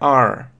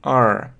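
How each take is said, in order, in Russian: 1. Заканчивается слышимым звуком r. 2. Заканчивается слышимым звуком r.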